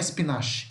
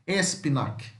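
First: The 'ch' is said as a soft sh sound. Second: The 'ch' is said as a hard k sound. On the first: The speaker calls it wrong. "Não é espinache, não" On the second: The speaker calls it right. "Som de K, Q"

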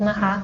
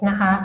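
The two takes are said the same way.

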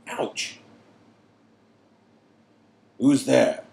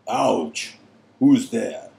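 First: The two phrases are in mismatched voices. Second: Both phrases are in Karkaroff's voice.

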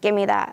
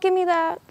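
First: The voice sounds harsh and mean. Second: The voice sounds whiny and childish. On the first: The character is demanding it angrily. "instead of saying" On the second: The character is pleading like a kid. "I'm just going to do it more childish"

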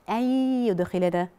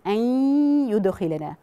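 First: The n merges fully with no nasal hum. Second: The n merges but keeps a nasal hum. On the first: The speaker calls it wrong. "ولكن أنا ما بقولهاش أن يدخلنا، لا" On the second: The speaker calls it right. "بتبقى من النون غنتها. يعني هقول أن يدخلنا"

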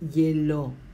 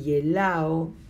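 First: The 'a' is dropped, ending in plain 'o'. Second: The 'a' before the final 'o' is pronounced.

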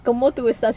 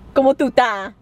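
First: The last word is said in full as "estás". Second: The last word is clipped to a short "ta". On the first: It is the standard way of asking. The speaker calls it right. "And it's como tu estás" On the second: It is a casual slang way of asking. The speaker calls it wrong. "That's not how you say it. Mad slang"

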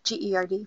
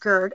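First: It is spelled out letter by letter. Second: It is said as a single word. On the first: "although some doctors will actually say GERD" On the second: "GERD is GERD"

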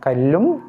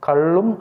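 First: The l sound is dental, tongue at teeth. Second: The l sound is retroflex, tongue curled back. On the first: The word means stone. The speaker calls it right. "கல்லும் லகரம்தான் எழுத வேண்டும்" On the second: The word means toddy, not stone. The speaker calls it wrong. "கல்லும் அல்ல"

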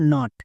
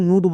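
First: The vowel sounds like 'ah'. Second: The vowel sounds like 'oo'. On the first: The speaker calls it right. "ইউ এর জন্য আকার হবে।" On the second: The speaker calls it wrong. "একে কিন্তু ভুল করেও নুট বলা চলবে না।"

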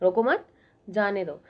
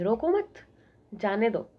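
First: The pause comes after 'mat'. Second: The same.

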